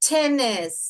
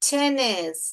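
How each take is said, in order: Both takes have the same delivery.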